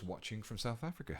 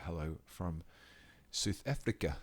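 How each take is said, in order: First: Said in the usual way. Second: A light attempt at a South African accent; hammed-up South African accent hello. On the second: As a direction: greet them in your best South African accent. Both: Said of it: "That's the best South African accent I can do".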